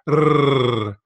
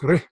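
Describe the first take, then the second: First: The r is rolled long with many trills. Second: The r is a single quick tap. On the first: The speaker calls it wrong. "sometimes you hear people overdo it" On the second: The speaker calls it right. "It's real quick"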